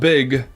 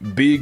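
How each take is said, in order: First: The vowel is short, as in normal speech. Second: The vowel is long, like 'beeg'. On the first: Merely ordinary importance. "Not big" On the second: Extremely, exaggeratedly important. "big with two E's"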